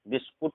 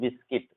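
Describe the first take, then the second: First: The last syllable sounds like 'kut'. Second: The last syllable sounds like 'kit'. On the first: The speaker calls it wrong. "बिस्कुट नहीं पढ़ते" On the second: The speaker calls it right. "यहाँ पर बिस्किट"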